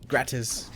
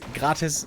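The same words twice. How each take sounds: First: It is said with an English pronunciation. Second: It is said with a German pronunciation. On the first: "gratis in English" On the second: "gratis in German"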